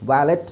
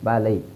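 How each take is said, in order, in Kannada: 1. ಪದ t ಶಬ್ದದಿಂದ ಕೊನೆಗೊಳ್ಳುತ್ತದೆ. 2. ಪದ ಸ್ವರ ಶಬ್ದದಿಂದ ಕೊನೆಗೊಳ್ಳುತ್ತದೆ. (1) "ವ್ಯಾಲೆಟ್ ಅಲ್ಲ" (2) "ವ್ಯಾಲೆಟ್ ಅಲ್ಲ ವ್ಯಾಲೈ"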